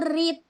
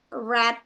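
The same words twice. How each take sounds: First: The vowel is a long 'ee' sound. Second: The vowel is a short 'e' sound. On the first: It is the present form of the verb. "yang pertama bacanya read, pakai I" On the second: It is the past form of the verb. "Kalau yang kedua, ketiga pakai E"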